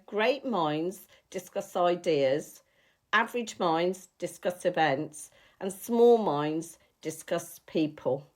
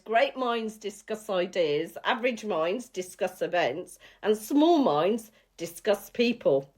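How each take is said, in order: First: It is said a bit slower. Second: It is said at normal speed.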